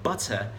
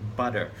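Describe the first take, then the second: First: It is said in a British accent. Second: It is said in an American accent. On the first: "the British people would say butter" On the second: "Americans would say butter"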